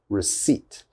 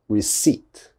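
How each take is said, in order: First: The P sound is silent. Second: The same.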